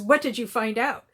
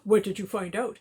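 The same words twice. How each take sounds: First: It is said in her normal voice. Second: It is said in the male character's voice.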